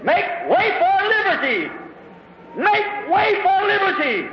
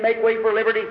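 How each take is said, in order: First: High, ringing battle cry; a preacher's heroic war cry; screamed battle cry. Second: Said in the usual way. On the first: Retold or imitated. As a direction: cry it out like a hero charging the spears. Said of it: "he raised up his hands and screamed".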